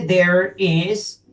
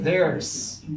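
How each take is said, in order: First: Said in the usual way. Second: THERE'S run together as one syllable; "there's" said as a single contracted word. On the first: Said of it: "uno puede unir las dos palabras". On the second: Shown as a demonstration. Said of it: "unir las dos palabras y dice there's".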